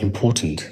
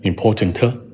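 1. 结尾的音短而轻。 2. 结尾的音拖长且重。

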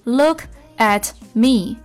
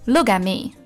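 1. t 音爆破出来，把短语断开了。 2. t 音不爆破、保持闭塞，短语就连贯了。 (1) "你肯定是这样发的look at me，这样不就断了吗？" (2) "你这个at me at me at 还是没有爆破出来的，只是做好顶住上牙膛憋住气这个口型就好。"

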